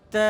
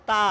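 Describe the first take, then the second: First: তা with a light, fronted "ae" vowel, like "tae"; thin তা. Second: তা with a broad, open "aa" vowel; তা on a full back vowel, mouth open; thick তা. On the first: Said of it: "এটাও পাতলা উচ্চারণ হবে". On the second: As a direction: say তা in the heavy Urdu-like way. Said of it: "মোটা হবে না". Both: Shown as a demonstration.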